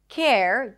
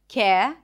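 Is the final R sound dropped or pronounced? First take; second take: pronounced; dropped. First: The final R sound is pronounced. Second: The final R sound is left out.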